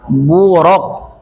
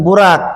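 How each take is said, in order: First: The r syllable is heavy, like 'ro'. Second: The r syllable is light, like 'ra'. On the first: The speaker calls it right. "Ro atau ra? Ro" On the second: The speaker calls it wrong. "bukan burak"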